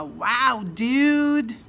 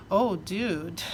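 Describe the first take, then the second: First: Amazed wow. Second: Sympathetic groan. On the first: Hearing a friend got into Harvard, delighted shout. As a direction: cheer it like great news just landed. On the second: Hearing someone lost a million dollars, dismayed. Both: Shown as a demonstration. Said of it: "depende da entonação".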